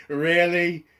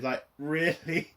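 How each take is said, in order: First: Real laugh into the word Really?; laughing disbelief. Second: Said in the usual way. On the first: Real, not acted. Laughing at the scene.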